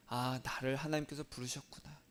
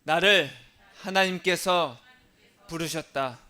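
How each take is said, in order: First: Softer, inward, to oneself; quiet realization. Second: Louder, with 하나님께서 drawn out; call-and-repeat declaration. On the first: Pastor models a private realization before the congregation repeats. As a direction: murmur it like a sudden realization. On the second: Pastor has the congregation repeat after him, loud. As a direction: proclaim it for everyone to echo. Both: Shown as a demonstration. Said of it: "따라하겠습니다".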